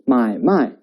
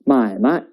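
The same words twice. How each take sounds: First: The second syllable keeps its full tone. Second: The second syllable is said in neutral tone. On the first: It means to buy and sell. "it means buy and sell" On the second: It means business. "it means business"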